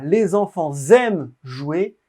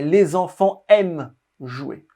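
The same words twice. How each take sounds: First: A z sound links enfants to the next word. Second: No linking sound follows enfants. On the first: The speaker calls it wrong. "On ne dit pas" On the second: The speaker calls it right.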